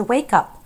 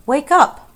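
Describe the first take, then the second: First: Said in the usual way. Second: Louder, higher urgent call; calling out to wake. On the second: Acted. A voice rousing the sleeping princess, urgent call. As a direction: call sharply to rouse a sleeper. Far voice calling her awake.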